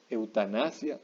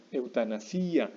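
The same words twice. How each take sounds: First: Said in the usual way. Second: Eutanasia slowed, with a long stressed i, eu-ta-na-SÍ-a. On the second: Shown as a demonstration. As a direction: drag out the i of eutanasia as the stressed vowel. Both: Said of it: "no estamos pronunciando fuerte la I".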